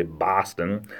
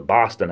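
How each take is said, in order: First: "Boston" with an open ah vowel; Bostonians' own Boston. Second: "Boston" with a rounded aw vowel; southern New England Boston. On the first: Showing how locals say "Boston", open ah vowel. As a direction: say "Boston" as BAH-stin, drawn out. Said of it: "but they say Boston". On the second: Showing how we say "Boston" south of there, aw vowel. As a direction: say "Boston" as BAW-stin, drawn out. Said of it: "we say Boston, a little bit south of Boston". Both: Shown as a demonstration.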